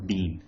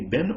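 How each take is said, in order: First: "been" with a long ee, like "bean"; long-vowel been. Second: "been" with a short i, like "bin"; short-vowel been. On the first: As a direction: say "been" to rhyme with "seen". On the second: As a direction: say "been" to rhyme with "tin". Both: Shown as a demonstration. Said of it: "you can say been or been".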